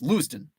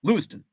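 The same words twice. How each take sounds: First: It is said quickly, ending in 'ton'. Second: The same.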